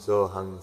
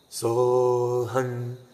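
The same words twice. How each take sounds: First: The sound is thin and stays in the mouth. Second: The sound resonates strongly in the throat. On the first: "A person speaking without a feeling will be using their lips" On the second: "put more attention to our vocal cords, root sound in here"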